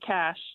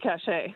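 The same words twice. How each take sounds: First: The word has one syllable with a silent e. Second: The word has two syllables, sounding the e. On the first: The speaker calls it right. "we say cache" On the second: The speaker calls it wrong. "not cache"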